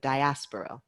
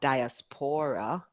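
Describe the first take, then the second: First: The stress is on the 'as' syllable. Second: The stress is not on the 'as' syllable. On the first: The speaker calls it right. "the third word has the stress on the as" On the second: The speaker calls it wrong. "A lot of people say it incorrectly. We say, we hear a lot"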